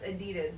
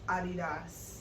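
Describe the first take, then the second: First: The name is said the common American way. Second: The name is said the original German way. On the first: The speaker calls it wrong. "it's not pronounced Adidas" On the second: The speaker calls it right. "they're pronounced Adidas"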